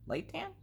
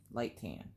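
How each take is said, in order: First: "Light tan?" in a very high squeaky rising voice; high squeak. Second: Said in the usual way. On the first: Real, not acted. Colorist questioning the pencil name to herself, high squeak.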